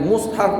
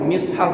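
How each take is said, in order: First: The first vowel is u. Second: The first vowel is i.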